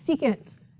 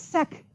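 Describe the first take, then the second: First: It is said as two full syllables. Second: It is said as one short syllable. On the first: The speaker calls it right. "It's secant" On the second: The speaker calls it wrong. "This is not sec"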